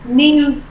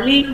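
First: The word begins with a clear N sound. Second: The word begins with an L-like sound. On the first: The speaker calls it right. "mà là new student" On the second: The speaker calls it wrong. "mình không đọc là new"

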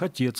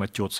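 First: The stressed vowel is pronounced as 'ye'. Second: The stressed vowel is pronounced as 'yo'. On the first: The speaker calls it right. "у нас тоже нет перехода в «ё»" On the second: The speaker calls it wrong. "Мы не говорим"

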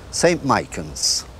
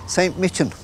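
First: It is said in a Rathgar accent. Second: It is said in a County Dublin accent.

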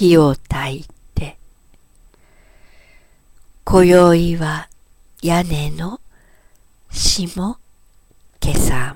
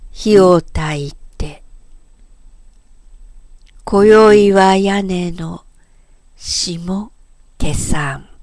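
The two takes are said the same way.

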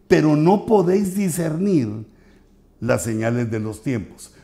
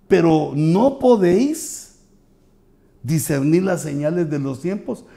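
First: It is said flatly, without question intonation. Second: It is said with clear question intonation. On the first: The speaker calls it wrong. "no se notó la pregunta" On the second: The speaker calls it right. "en tono de pregunta"

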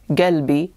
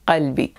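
First: The word starts with a hard g sound. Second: The word starts with a deep q sound. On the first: This is the Gulf dialect form. "they often replace qaf with ga" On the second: This is the modern standard Arabic form. "instead of qalbi"

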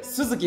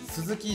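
First: It carries the pitch accent pattern of the given name. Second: It carries the pitch accent pattern of the surname. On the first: The speaker's given name is meant. The speaker calls it right. "下の名前が鈴木っていうので" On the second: The common family name is meant. The speaker calls it wrong. "鈴木じゃなくて"

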